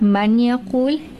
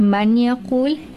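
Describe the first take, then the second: First: The n sound is clearly pronounced before the y. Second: The same.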